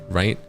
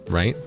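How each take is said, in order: No difference in how they are said.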